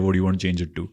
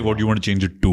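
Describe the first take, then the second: First: The final 'to' gets slight emphasis. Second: The final 'to' gets heavy emphasis.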